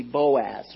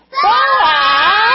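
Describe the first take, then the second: First: Said in the usual way. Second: Boaz! yelled full out, much higher and louder; leading the kids in a big yell of Boaz!; yell as loud as you can. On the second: Shown as a demonstration. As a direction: shout Boaz! at the top of your lungs. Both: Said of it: "Yell as loud as you can with me".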